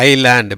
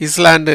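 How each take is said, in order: First: ஐலேண்ட் with a silent S, low and falling; ஐலேண்ட், long "eye" and no s; correct pronunciation. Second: இஸ்லாண்ட் as "iss-land"; short i and sounded S in இஸ்லாண்ட்; wrong pronunciation. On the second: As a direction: say இஸ்லாண்ட் with the s heard. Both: Shown as a demonstration. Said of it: "எப்படி சொல்லணும்?".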